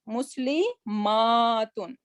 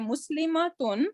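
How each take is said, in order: First: The vowel before -tun is long. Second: The vowel before -tun is short. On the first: The speaker calls it right. "So I'm stressing extra over here" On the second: The speaker calls it wrong. "If I'm not saying"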